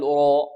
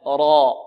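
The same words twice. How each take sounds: First: را said as 'ro' with pursed lips; rounded, o-coloured را; wrongly rounded lips. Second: را loud and dark, lips relaxed; full held را, no rounding; unrounded heavy raa. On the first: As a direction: show the error: pout on را. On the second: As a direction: correct it to thick را without pursing. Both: Shown as a demonstration. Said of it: "بدون ضم الشفتين".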